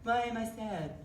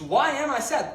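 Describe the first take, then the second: First: It sounds solemn, sulking and depressed. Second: It sounds like a genuine, searching question.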